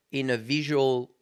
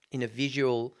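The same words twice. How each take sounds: The two takes are said the same way.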